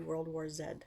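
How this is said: The letter is pronounced 'zed', Canadian style.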